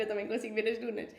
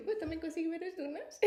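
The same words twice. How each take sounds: First: Said in the usual way. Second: Higher, puzzled echo of her words. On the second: Retold or imitated. Replying to the crying woman, in a higher puzzled echo. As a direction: echo her back, baffled and a bit higher. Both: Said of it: "Tá, tipo".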